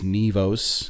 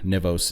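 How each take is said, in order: First: The first vowel is an 'ee' sound. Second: The first vowel is not an 'ee' sound. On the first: The speaker calls it right. "It's Nivos, kind of like N E E V O S" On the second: The speaker calls it wrong. "or Nivos"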